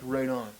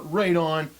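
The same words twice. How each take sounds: First: It is said calmly and solidly, settled. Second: It is said excitedly, with strong energy.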